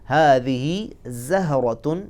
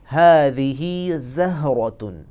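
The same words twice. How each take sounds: First: हादिही ज़हरतुन slowly in an Arabic accent, rising. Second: हादिही ज़हरतुन very slowly in an Arabic accent. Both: Shown as a demonstration. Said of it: "अरबी लहजे को मद्देनज़र रखना है".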